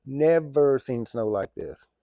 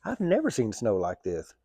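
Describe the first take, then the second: First: Slow, heavy stretch on Never; "Never" drawn long for emphasis. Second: Said in the usual way. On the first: Real, not acted. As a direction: stretch "Never" out and space the words. Repeats the line with added emphasis.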